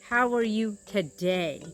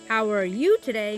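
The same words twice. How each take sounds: First: The emphasis falls on the word today. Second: The emphasis falls on the word you. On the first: The speaker asks about the present moment. "then you can put the emphasis on today" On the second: The speaker's interest is in this listener personally. "I want to know how you are doing"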